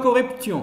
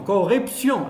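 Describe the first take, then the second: First: The t is pronounced as a t sound. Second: The t is pronounced as an s sound. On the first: The speaker calls it wrong. "On ne dit pas corruption" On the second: The speaker calls it right. "T se prononce S"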